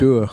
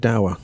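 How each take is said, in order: First: The vowel rhymes with moor, Scottish style. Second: The vowel rhymes with power, English style. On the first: "just the Scottish pronunciation Dur" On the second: "I would say dower"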